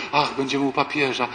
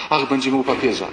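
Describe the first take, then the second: First: A hint of gushing ladies; mildly hammed-up rapture; mock exalted sigh. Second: Lightly hammed-up rapture; mock exalted sigh. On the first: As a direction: sigh it like excited pilgrims. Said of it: "wyluzujcie... bez takiej egzaltacji". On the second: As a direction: repeat the gush like the ladies. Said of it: "bez takiej egzaltacji".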